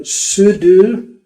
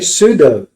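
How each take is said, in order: First: It is said in a non-British pronunciation. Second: It is said in a British pronunciation.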